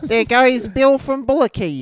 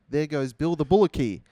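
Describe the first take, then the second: First: It is said in a put-on voice. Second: It is said in his natural voice.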